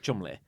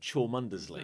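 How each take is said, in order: First: The name is said in a short, clipped form. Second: The name is said fully, as it is spelled. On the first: The speaker is a local insider. The speaker calls it right. "but it's pronounced yeah Chumley" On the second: The speaker is an outsider. The speaker calls it wrong. "any outsider would go"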